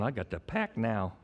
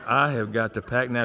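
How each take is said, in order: First: Quiet, low mock congregant; imitated sarcasm. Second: Low, fuller-voiced mock congregant; imitated sarcasm. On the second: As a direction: spell out "I have got" in mock sarcasm. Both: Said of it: "a lot of that sarcasm is coming out".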